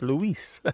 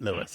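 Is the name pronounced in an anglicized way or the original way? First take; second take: original; anglicized. First: The name is pronounced the original way. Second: The name is pronounced in an anglicized way. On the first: The name is said as its owner says it. The speaker calls it right. "it's Luis" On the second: The speaker did not try to say it properly. The speaker calls it wrong. "his name isn't Louis"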